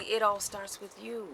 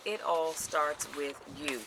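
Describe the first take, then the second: First: Said in the usual way. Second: IT ALL STARTS WITH YOU drawn out slowly, word by word; slow right down on "It all starts with you"; emphatic repeat. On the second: Real, not acted. Speaker drives a key point home to viewers, slow emphatic "It all starts with you". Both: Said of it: "I can't stress that enough".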